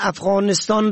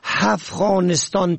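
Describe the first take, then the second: First: The word begins with a vowel sound. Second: The word begins with an h sound. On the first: The speaker calls it right. "که با الف شروع می شود" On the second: The speaker calls it wrong. "با ه دو چشمه هفغانستان تلفظ می کنن"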